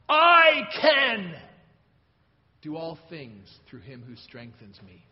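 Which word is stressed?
can. The word 'can' is stressed. The speaker is able to do it. "I can!"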